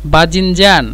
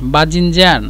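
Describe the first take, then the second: Both takes have the same delivery.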